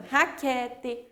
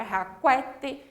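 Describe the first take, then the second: First: Raquete with QU as a plain k; silent U. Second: Raquete mispronounced ha-KWE-tchi; deliberate kw in raquete; wrongly sounded U. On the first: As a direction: say "raquete" as ha-KE-tchi, no w. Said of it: "formam também um único som". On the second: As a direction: say "raquete" with a w after the k. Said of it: "se eu pronunciar". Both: Shown as a demonstration.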